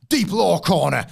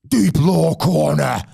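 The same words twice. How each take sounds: First: It is said plainly, without drama. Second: It is said with dramatic heft.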